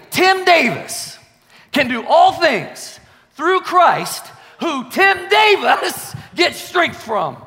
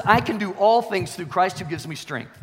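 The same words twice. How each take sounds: First: Slow, high, shouted proclamation; triumphant personal declaration. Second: Said in the usual way. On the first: Shown as a demonstration. Preacher putting his own name into scripture, triumphant shouted declaration. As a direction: shout it slowly, pitched way up, pausing between phrases. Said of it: "So you know what I do? I say". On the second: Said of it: "The Bible says".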